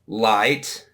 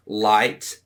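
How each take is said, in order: Both takes have the same delivery.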